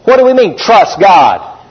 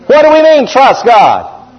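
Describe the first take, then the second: First: Said in the usual way. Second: Emphatic repeat. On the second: Shown as a demonstration. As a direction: drive the question home. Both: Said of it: "repeated question".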